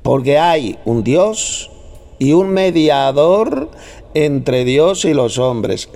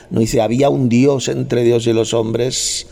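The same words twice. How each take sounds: First: "hay" drawn out very slowly and emphatically; stress on hay. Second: "había" leaned on in a slow reading; stress on había. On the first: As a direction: hammer "hay" slowly, word by word. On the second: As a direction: slowly set up "había" as the wrong word. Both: Shown as a demonstration. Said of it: "hay, no dice había".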